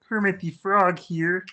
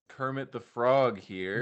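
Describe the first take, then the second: First: It is a convincing Kermit the Frog voice. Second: It is a weak, unconvincing Kermit imitation.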